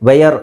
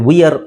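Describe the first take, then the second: First: It is two syllables, starting with 'vay'. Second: It is two syllables, starting with 'vee'. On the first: "ವೇಯರ್ ಅಲ್ಲ" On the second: "ವಿಯರ್ ಅಲ್ಲ"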